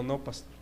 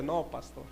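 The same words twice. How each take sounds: First: Quiet, sheepish admission with eyes lowered; ashamed, head down. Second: Softly conceding, voice dropped low; sheepish, quiet. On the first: Ashamed church member admits to the pastor, quietly. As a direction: mumble it softly, caught out. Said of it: "agachó la cabeza". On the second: The man concedes to the pastor, quiet and sheepish. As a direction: admit defeat under your breath. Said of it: "No es que yo tenga razón". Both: Retold or imitated.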